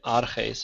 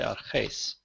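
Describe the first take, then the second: First: The stress is on the first syllable. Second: The stress is on the last syllable. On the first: The speaker calls it wrong. "I'm not going to say arches" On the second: The speaker calls it right. "I'm going to say arches"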